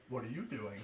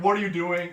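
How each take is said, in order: First: "What are you doing?" low and much softer, dazed; groggy half-awake. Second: Said in the usual way. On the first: Retold or imitated. Sleepwalker coming to, asking softly and groggily. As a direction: mumble it as if just waking. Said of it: "Jason's like". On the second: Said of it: "And then Casey's like".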